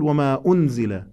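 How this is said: The stress falls on the second word, unzila. That which was sent down. The speaker calls it wrong. "إذا قلت وما أنزل ووقع النبر على كلمة أنزل"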